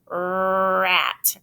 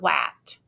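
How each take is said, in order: First: The word begins with an R sound. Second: The word begins with a W sound. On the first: The speaker calls it right. "make sure when you're saying words that start with R" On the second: The speaker calls it wrong. "not wat"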